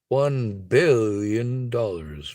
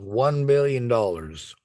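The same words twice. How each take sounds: First: It is said imitating Doctor Evil. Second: It is said in his normal voice.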